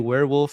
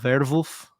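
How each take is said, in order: First: It is said with a plain English accent. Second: It is said with a German accent. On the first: "I'm going to say werewolf for for ease" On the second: "pronounced like someone with a German accent"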